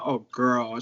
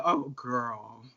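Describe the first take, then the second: First: A hint of a soothing older queen, repeated for effect; low, knowing "oh girl"; lightly voiced sympathetic queen. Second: A hint of a soothing older queen; lightly voiced sympathetic queen. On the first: Drag queen repeating how the comforting queen said it, low and soothing. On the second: Drag queen imitating the queen who comforted her, low soothing "Oh, girl". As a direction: say it low and knowing. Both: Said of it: "That's how she said".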